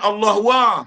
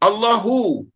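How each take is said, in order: First: The last syllable is said as wa. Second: The last syllable is said as hu. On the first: The speaker calls it wrong. "Bukan Allah wa. Dia tak jaga adab" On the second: The speaker calls it right. "Huruf ha kasrah, ha dhammah"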